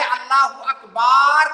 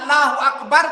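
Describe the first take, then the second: First: The vowel after 'b' is drawn out long. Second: The vowel after 'b' is short. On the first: God is a drum. The speaker calls it wrong. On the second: God is the greatest. The speaker calls it right.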